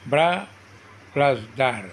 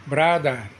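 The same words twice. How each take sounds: First: "bra", pause, "plus দার"; split into syllables. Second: Said in the usual way. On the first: Shown as a demonstration. Teacher dividing a word for students, "bra" and "দার" said apart. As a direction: sound out "bra" and "দার" one at a time. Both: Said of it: "দুটি syllable থাকে তাকে ডাইসিলেবল বলে".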